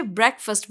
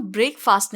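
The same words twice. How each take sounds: First: ब्रेकफास्ट said "BREK-fust"; correct pronunciation. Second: ब्रेकफास्ट said as "brake" plus "fast"; wrong pronunciation. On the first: Teacher gives the corrected word, clearly pronounced. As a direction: say ब्रेकफास्ट with short e and weak "fust". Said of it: "बल्कि ब्रेकफास्ट बोलते". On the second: Teacher shows learners what not to say, mispronounced. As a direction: say ब्रेकफास्ट with long ay and full "faast". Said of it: "इसको हम ब्रेकफास्ट नहीं". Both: Shown as a demonstration.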